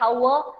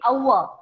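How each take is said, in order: First: The word begins with an audible h sound. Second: The word begins with no h sound. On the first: The speaker calls it wrong. "we never say it hour" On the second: The speaker calls it right. "H is not pronounced"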